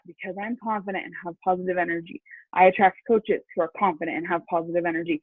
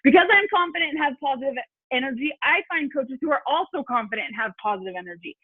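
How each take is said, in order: First: It is said in a calm, low-energy way. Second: It is said in a fired-up, excited way.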